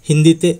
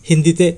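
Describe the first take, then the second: Both takes have the same delivery.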